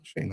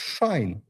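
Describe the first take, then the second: First: The vowel sounds like 'ay' in 'day'. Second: The vowel sounds like 'eye' in 'shine'. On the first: The speaker calls it wrong. "I always believed this Shane for some reason" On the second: The speaker calls it right. "So it's Shine. Shine like a star"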